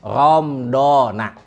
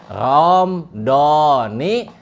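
First: The word ends with an 'a' vowel. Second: The word ends with an 'i' vowel. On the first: The speaker calls it wrong. "sanes ramdhana" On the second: The speaker calls it right. "Nu pas dibaca mah ramdhani"

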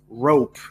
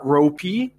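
First: The word ends with the p and no extra vowel sound. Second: The word ends with an extra vowel sound after the p. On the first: The speaker calls it right. "it's rope. It's a long O" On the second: The speaker calls it wrong. "So it's not ropey"

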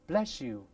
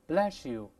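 First: The s changes into an sh sound. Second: The same.

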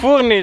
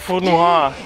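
First: The name ends in an 'ee' sound. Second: The name ends in a 'wahr' sound. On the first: The speaker calls it right. "It's Fourni" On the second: The speaker calls it wrong. "it's not Fournoir"

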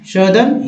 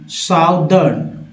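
First: It is said in a British accent. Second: It is said in an American accent.

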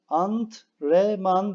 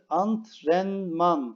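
First: There is no n sound before the m. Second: There is an n sound before the m. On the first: The speaker calls it wrong. "değil" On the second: The speaker calls it right. "Burada bir tane N sesi var"

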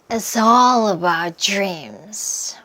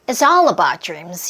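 First: The sentence is spoken slowly and deliberately. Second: The sentence is spoken fast, like a lively speech. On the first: "이제 천천히 같이 한번 해볼게요" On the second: "마지막은 이분의 속도 그대로 한번 해보는 거지요. 느낌 살려서 내가 스피치 한다고 생각하고"

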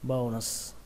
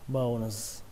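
First: The word ends with an s sound. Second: The word ends with a z sound.

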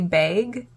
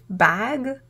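First: The word has a Canadian-style vowel. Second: The word has a non-Canadian vowel. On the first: "Canadians often say bag" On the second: "instead of bag"

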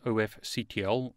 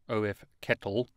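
First: The ending is spelled out letter by letter. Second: The ending is said as the word kettle.

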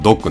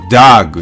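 First: The vowel sounds like a rounded 'oh'. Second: The vowel sounds like an open 'ah'. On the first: The speaker calls it right. "ドッグはドッグなんですね。" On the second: The speaker calls it wrong. "ドッグがdog になるかというと、それはならないんですね。"

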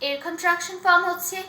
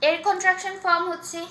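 The two takes are said the same way.

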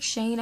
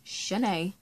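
First: The name ends with an 'n' sound. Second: The name ends with an 'ay' vowel. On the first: The speaker calls it wrong. "my name is not Shane" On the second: The speaker calls it right. "no, ma'am, it's Shanae"

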